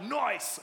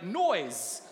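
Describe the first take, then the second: First: "noise" with a sharper hissed s at the end; "noise" ending in s rather than z; wrong "noise". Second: Said in the usual way. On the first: Shown as a demonstration. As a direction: say "noise" as the slangy "noice". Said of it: "not like noise". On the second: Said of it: "uh, like noise".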